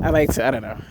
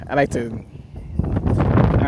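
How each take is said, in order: First: Said in the usual way. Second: Slow breathy whisper of I like to, I don't know; hushed, drawn-out whisper. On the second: Shown as a demonstration. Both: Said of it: "repeats the line whispered".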